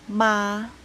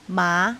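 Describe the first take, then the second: First: The pitch stays high and level. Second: The pitch rises from fairly low. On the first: "Premier ton, c'est le ton O, assez élevé dans la voix et égal" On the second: "Deuxième ton, c'est le ton montant"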